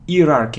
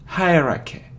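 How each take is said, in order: First: The main stress is on a later syllable. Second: The main stress is on the first syllable. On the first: The speaker calls it wrong. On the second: The speaker calls it right.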